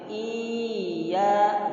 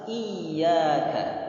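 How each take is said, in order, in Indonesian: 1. Bunyi y yang digandakan menjadi vokal panjang yang ditarik. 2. Bunyi y digandakan dan ditekan dengan kuat. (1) "merubah ya bertasdid menjadi mat. Tidak boleh. Misalkan seperti ini" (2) "Harus iyyaka"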